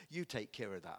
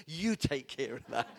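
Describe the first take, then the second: First: YOU stressed, lower and softer. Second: YOU punched at normal level; stress on you. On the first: Preacher to congregation, stress on you. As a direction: lean on you. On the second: Preacher repeating to congregation, stress on you. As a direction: hit the word you. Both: Shown as a demonstration.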